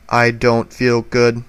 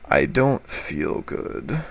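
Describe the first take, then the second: First: It is said flatly, with no inflection. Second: It is said in a weak, sick-sounding voice. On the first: The reason for feeling unwell is unclear. "You cannot hear any inflection in my voice" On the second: The speaker is ill. "you would know that I'm sick"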